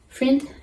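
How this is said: The vowel sounds close to an ee sound. "friend au lieu de"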